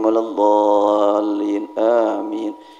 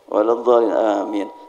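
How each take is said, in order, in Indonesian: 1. Dibacanya pelan dan tenang. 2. Dibacanya sangat cepat. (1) "dua puluh tiga rileks" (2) "Cepat memang"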